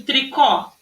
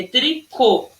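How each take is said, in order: First: TRICÓ with open final ó, "tri-KAW"; wrong open O. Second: TRICÔ in syllables with closed ô. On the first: Teacher showing pupils the wrong reading, TRICÓ with open ó. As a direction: end TRICÓ on a wide open ó. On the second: Teacher correcting the wrong reading, TRICÔ with closed ô. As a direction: correct it to TRI-CÔ, rounded final ô. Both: Shown as a demonstration. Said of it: "mas não é isso".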